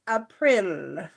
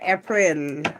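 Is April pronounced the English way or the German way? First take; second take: German; English. First: April is pronounced the German way. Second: April is pronounced the English way.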